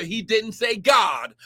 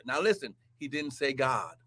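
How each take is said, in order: First: Emphatic preacher's cry on "God"; stress on God. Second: Much softer and lower "he didn't say God", "God" falling; quiet, pointed aside; hushed point. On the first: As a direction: shout out "God" to make the point. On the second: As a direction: drop to a near whisper to drive it home. Preacher drops to hushed point. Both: Real, not acted.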